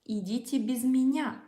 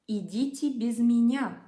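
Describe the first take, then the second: The two takes are said the same way.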